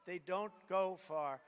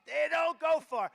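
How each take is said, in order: First: Put-on slow, childish sing-song; mock first grader voice. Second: Loud, higher declaration; loud punchline repeat; emphatic. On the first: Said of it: "That's like a first grader". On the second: Shown as a demonstration. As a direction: hammer it home as fact. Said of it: "That's about as accurate".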